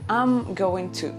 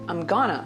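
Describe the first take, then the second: First: Every word of 'I'm going to' is said fully. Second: 'Going to' is reduced and run together as 'gonna'. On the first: "You can say" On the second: "You can say"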